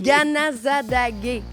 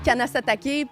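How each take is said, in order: First: The name starts with a soft g sound. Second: The name starts with a hard k sound. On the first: This is the proper local name. The speaker calls it right. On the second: This is how most people say it. The speaker calls it wrong. "Tout le monde dit Kanasatake puis Oka. C'est pas ça"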